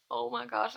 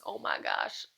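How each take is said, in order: First: Said in the usual way. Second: Whispered, almost no voice; breathless whisper. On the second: Real, not acted. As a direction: gasp it out in a whisper. Stunned reaction to book ending.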